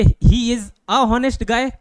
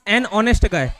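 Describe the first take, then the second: First: Slow, deliberate "a honest guy"; wrong article, slowly. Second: Slow, with "an" linking into "honest"; right article, slowly. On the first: Teacher to class, slowly posing the wrong option. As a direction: spell out "he is a honest guy" word by word. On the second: Teacher to class, slowly posing the right option. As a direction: say "an honest guy" slow and even. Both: Shown as a demonstration. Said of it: "कि an honest guy".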